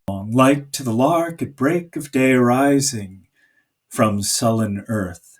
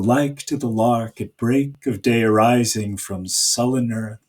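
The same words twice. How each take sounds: First: There is a pause after "arising". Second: It runs on without a pause after "arising". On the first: The speaker calls it wrong. "if I were to read it pausing at the end of the line, it would be wrong" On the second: The speaker calls it right. "It wants to go like"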